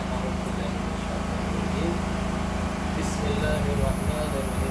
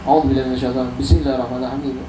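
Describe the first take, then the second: First: A short pause separates the two phrases. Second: The phrases run together without any pause. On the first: The speaker calls it right. "disunnahkan kita e, berhenti sejenak" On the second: The speaker calls it wrong. "Nyambung semua deh"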